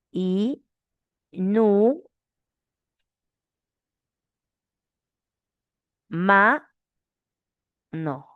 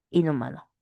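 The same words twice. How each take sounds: First: I... NU... MA... NO, each syllable alone with long gaps. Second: Said in the usual way. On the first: Shown as a demonstration. Teacher showing how to separate inhumano, syllable by syllable. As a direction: split "inhumano" into four held syllables. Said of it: "¿Cómo separamos?". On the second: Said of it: "Esa es la forma correcta".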